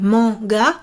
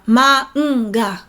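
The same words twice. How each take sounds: First: The word is said in two syllables. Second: The word is said in three syllables. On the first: The speaker calls it wrong. "on ne dit pas manga en deux syllabes" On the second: The speaker calls it right. "mais trois syllabes"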